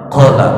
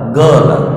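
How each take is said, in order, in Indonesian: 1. Kata itu dimulai dengan bunyi Q yang dalam dari tenggorokan. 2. Kata itu dimulai dengan bunyi G yang keras.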